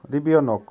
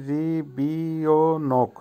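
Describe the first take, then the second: First: Said in the usual way. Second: রিবিওনোক drawn out slowly, syllable by syllable; slow pronunciation demo. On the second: Shown as a demonstration. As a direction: stretch রিবিওনোক into ri, bi, o, nok. (রিবিওনোক ধীরে ধীরে, ভেঙে ভেঙে উচ্চারণ) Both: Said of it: "উচ্চারণ হবে".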